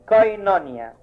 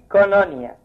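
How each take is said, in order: First: The first syllable has both o and i vowels. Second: The first syllable has only an o vowel. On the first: "يتنطقوا الحرفين كاملين يبقى اي كوينونيا" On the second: "يتنطق حرف واحد اللي هو الاو يبقى كونونيا"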